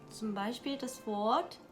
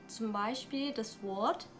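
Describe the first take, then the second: No difference in how they are said.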